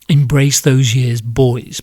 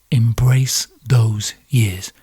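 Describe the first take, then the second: First: Said in the usual way. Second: Slow, low whispered aside. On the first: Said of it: "I was actually going to say". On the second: Real, not acted. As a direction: breathe it slowly as a whisper.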